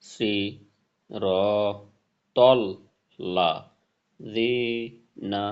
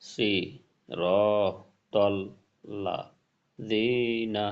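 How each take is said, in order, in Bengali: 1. প্রতিটি শব্দাংশ আলাদাভাবে, মাঝখানে বিরতি দিয়ে বলা হয়। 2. প্রতিটি শব্দাংশ আলাদাভাবে, মাঝখানে বিরতি দিয়ে বলা হয়।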